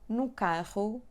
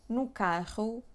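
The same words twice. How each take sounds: Both takes have the same delivery.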